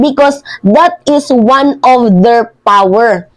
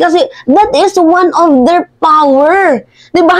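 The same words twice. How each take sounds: First: Said in the usual way. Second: Higher, put-on voice parroting his words; sarcastic high mimicry of a politician; mocking echo. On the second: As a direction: parrot him back with a sneer. Throwing Roque's words back.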